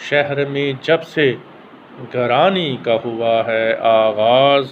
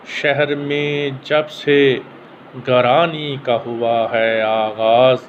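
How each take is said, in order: Both takes have the same delivery.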